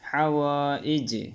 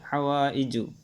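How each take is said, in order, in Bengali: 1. শব্দটি একটি ব্যঞ্জনবর্ণ দিয়ে শেষ হয়, কোনো স্বরধ্বনি ছাড়া। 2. শব্দটি শেষে 'u' স্বরধ্বনি দিয়ে শেষ হয়। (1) "অক্ফ করবে ইজু ইজ হবে" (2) "আর নাইলে হাওয়াইজু"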